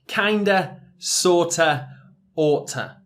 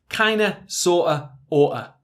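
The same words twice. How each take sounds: First: The words are moderately contracted. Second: The words are heavily contracted.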